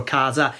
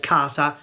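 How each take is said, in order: First: Casa said "KAH-za"; voiced S. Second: Casa said "KAH-sa"; unvoiced S. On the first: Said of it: "casa or casa". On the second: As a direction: say casa with a sharp S. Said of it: "with the unvoiced S". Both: Shown as a demonstration.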